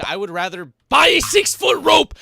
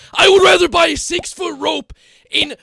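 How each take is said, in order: First: Much higher, louder hammed-up yell; mock despair shout. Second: Far higher, louder hammed-up scream; bigger mock despair shout. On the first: Streamer rejecting a Rocket League suggestion, mock yell. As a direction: throw it out as a comic overreaction. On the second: Streamer repeats the joke louder, hammed-up scream. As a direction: top the first take with a full comic scream.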